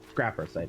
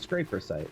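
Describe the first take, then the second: First: The first vowel sounds like 'cap'. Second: The first vowel sounds like 'cape'. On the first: The speaker calls it right. "The other pronunciation of the thing I said" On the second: The speaker calls it wrong. "not a scraper"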